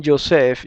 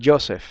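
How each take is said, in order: First: Joseph stressed on the last syllable, jo-SEPH; final stress. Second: Joseph stressed on the first syllable, JO-seph. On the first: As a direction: say Joseph with the accent on the E. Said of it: "algunos me dicen Joseph". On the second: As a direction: say Joseph with the accent on the O. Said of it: "otros me dicen Joseph". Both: Shown as a demonstration.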